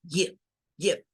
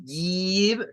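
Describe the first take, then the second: First: Give, clipped and short. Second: Slow mistaken give; wrong way. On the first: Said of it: "Es muy corto el sonido". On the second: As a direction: give stretched with a long i. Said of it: "No es give". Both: Shown as a demonstration.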